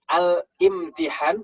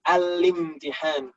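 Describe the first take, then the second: First: A glottal stop is heard before the i. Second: The l links straight into the next syllable. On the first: The speaker calls it wrong. "bukan al-imtihan" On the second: The speaker calls it right. "tapi al-limtihan"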